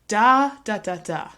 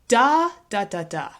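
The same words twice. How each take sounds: The two takes are said the same way.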